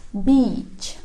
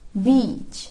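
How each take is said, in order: The two takes are said the same way.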